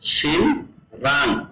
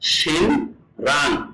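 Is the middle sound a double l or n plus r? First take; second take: n plus r; n plus r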